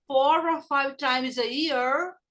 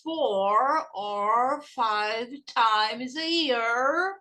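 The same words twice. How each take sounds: First: Slightly slow phrase with the words run together; connected model phrase for learners; repeat-after-me, linked. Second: Very slow, each word drawn out, rising at the end; word-by-word classroom drill; repeat-after-me slow. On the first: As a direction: link the words smoothly, rising at the end. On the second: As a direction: stretch every word for learners to copy. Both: Shown as a demonstration. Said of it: "Repeat after me".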